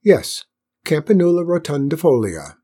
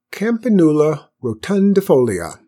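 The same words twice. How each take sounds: First: Grand, satisfied repeat of the Latin name; self-pleased ceremonial announcement; with a flourish. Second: Latin name announced louder and higher; important-sounding first announcement; inventive pronouncement. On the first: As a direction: proclaim it with a flourish, raised and louder. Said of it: "repeated it with a flourish". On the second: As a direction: try out a grand invented name, carefully. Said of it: "who was full of invention". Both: A narrator's reading.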